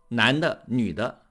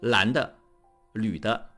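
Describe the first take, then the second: First: The syllables start with an n sound. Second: The syllables start with an l sound. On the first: The speaker calls it right. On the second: The speaker calls it wrong.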